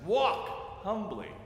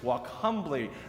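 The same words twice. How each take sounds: First: The stress is on walk. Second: The stress is on humbly.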